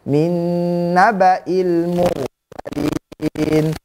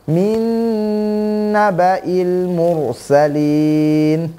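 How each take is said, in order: No difference in how they are said.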